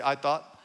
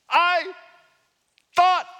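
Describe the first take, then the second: First: Said in the usual way. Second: Loud, high, offended "I thought"; mock-outraged "I thought"; indignant I thought. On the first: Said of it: "Everybody say". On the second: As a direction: spit it out like a man insulted. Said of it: "And he says".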